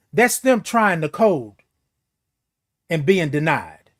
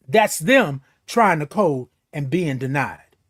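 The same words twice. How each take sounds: The two takes are said the same way.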